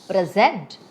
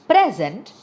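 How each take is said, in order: First: The stress is on the second syllable. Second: The stress is on the first syllable.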